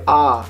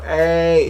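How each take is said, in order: First: Ah held as a pure open vowel. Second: A drawn out as "ay"; English long A. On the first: Teacher showing the wanted vowel, open "ah". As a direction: open it right up on ah. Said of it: "you do ah". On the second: Teacher showing the sound to avoid, long "ay". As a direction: stretch the A like the letter's name. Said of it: "You don't really do the". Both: Shown as a demonstration.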